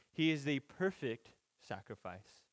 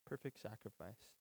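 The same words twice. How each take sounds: First: Said in the usual way. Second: Soft repeat. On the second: Shown as a demonstration. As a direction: echo it back much softer, almost under the breath.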